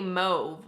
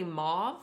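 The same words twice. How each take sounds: First: Mauve with a long O, "mohv"; own usual pronunciation. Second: Mauve with an open "ah", "mahv"; corrected pronunciation. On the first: Vlogger showing how she always says it, mauve as "mohv". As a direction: say mauve to rhyme with stove. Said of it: "I would always say mauve". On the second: Vlogger repeating commenters' correction, mauve as "mahv". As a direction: say mauve as "mahv", lifting questioningly. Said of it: "I'm supposed to say mauve". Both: Shown as a demonstration.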